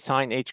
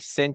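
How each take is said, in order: First: The h is said as a separate letter. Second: The h blends into one syllable. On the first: The speaker calls it wrong. "But you don't say sine H" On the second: The speaker calls it right. "or you could say sinh"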